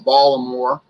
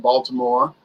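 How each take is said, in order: First: It is said in a local Baltimore accent. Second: It is said in a standard accent.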